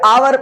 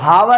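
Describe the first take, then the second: First: The word begins directly with a vowel. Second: The word begins with an h sound. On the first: The speaker calls it right. "आवर पढ़ेंगे" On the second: The speaker calls it wrong. "हावर ना पढ़ते हुए"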